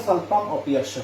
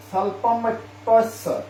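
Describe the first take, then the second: First: স্বল্পম, অপি, অশ্ব as separate words; স্বল্পম অপি অশ্ব with the "i" of অপি sounded; broken-down form. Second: Slow স্বল্পম অপ্যস্য with "opyossho" run together; স্বল্পম অপ্যস্য with sandhi kept; joined form. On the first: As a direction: split the sandhi into অপি and অশ্ব. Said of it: "ভেঙে যদি উচ্চারণ করা হয়". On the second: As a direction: glide অপ্যস্য through the y-sound as one word. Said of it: "তো ভেঙে যদি উচ্চারণ করা হয়". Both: Shown as a demonstration.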